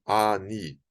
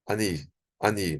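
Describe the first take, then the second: First: Ani with a drawn-out AA at the start; forceful long A. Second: Ani with a short, unstressed A; quicker A. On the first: Teacher showing what to avoid, ani with a long, forceful A. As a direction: stretch and lean on the A of ani. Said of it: "Você não vai dizer ani". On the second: Teacher modelling the shva, ani with a quick, light A. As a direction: pass quickly over the A of ani to NI. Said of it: "um A mais rápido". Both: Shown as a demonstration.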